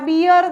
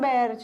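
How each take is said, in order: First: The vowel sounds like the one in 'beer'. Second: The vowel sounds like the one in 'bare'. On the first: The speaker calls it wrong. "આ બિયર નહીં" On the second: The speaker calls it right. "પણ બેર છે"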